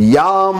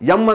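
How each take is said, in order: First: The syllable is said as 'yaam' with long vowel. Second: The syllable is said as a short 'em'. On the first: It is the intended seed syllable of the mantra. The speaker calls it right. "ಕರೆಕ್ಟಾಗಿ ಉಚ್ಚಾರಣೆ" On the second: It becomes a harmful seed syllable linked to Yama. The speaker calls it wrong. "ಎಮ್ ಅಂದ್ಬಿಡ್ತಾರೆ ಕೆಲವರು"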